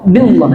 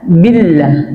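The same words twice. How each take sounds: First: The l sound is heavy and thick. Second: The l sound is light and thin. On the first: The speaker calls it wrong. "Billah tidak boleh" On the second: The speaker calls it right. "billah itu dia dibaca tarqiq, tarqiq tipis"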